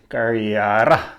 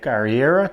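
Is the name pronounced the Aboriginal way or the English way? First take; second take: Aboriginal; English. First: The name has an Aboriginal-style pronunciation. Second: The name has an English-style pronunciation.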